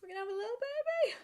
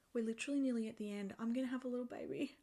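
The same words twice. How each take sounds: First: Teary high-pitched repeat; emotional. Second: Softer and quicker, half to herself; quietly taking it in; quiet fast aside before the emotion hits; hushed wonder. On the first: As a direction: voice rising much higher, close to tears. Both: Real, not acted. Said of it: "I'm so emotional".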